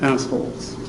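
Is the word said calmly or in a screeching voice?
calmly. The word is said in a plain, calm voice. The speaker was using casual slang. "He just sort of said assholes"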